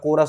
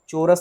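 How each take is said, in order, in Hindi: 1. शब्द की शुरुआत 'k' की आवाज़ से होती है। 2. शब्द की शुरुआत 'ch' की आवाज़ से होती है। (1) "कोरस होता है" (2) "चोरस नहीं होता"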